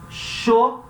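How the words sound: The word starts with an sh sound. This is common in Paraguay and Uruguay. "principalmente Paraguai e Uruguai, a gente fala sho"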